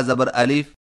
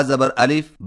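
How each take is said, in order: No difference in how they are said.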